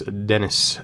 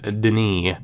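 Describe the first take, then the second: First: The name has an English pronunciation. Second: The name has a French pronunciation.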